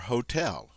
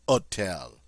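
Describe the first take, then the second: First: The word begins with an airy h sound. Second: The word begins directly with the vowel. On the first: "hear that, that English, that sound at the beginning" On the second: "The H is there, but we ignore it"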